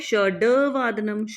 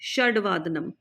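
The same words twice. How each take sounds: First: The d is followed by a vowel. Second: The d is half, with no vowel after it. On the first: The speaker calls it wrong. "Not" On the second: The speaker calls it right. "ड पूरा नहीं है, आधा है"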